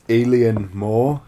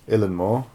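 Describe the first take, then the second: First: The first word sounds like the English 'alien'. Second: The first word sounds like 'eelan', two syllables. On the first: The speaker calls it wrong. "I'm not sure how to pronounce the name" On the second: The speaker calls it right. "There we go"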